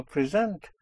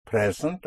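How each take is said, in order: First: "present" stressed on SENT; weak first syllable, strong SENT in "present"; second-syllable stress. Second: "Present" stressed on PRE; first-syllable stress. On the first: Teacher contrasting two English readings, "present" stressed on SENT. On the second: Teacher contrasting two English readings, "Present" stressed on PRE. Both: Shown as a demonstration. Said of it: "if it is present or present".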